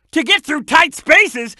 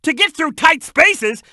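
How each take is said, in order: Both takes have the same delivery.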